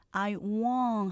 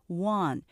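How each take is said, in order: First: "want" held long with an ng ending, like wong; long won't with ng. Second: "want" ending on a plain n sound, meaning want. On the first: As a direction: stretch "want" and close it with ng. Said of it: "ing 발음을 하셔야 정확한 wong". ("want" 길게 이응 받침으로) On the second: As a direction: say "want" with an n, not ng. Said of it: "니은 발음으로 하시면 W A N T". ("want" 니은 받침으로) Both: Shown as a demonstration.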